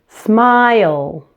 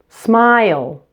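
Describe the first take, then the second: No difference in how they are said.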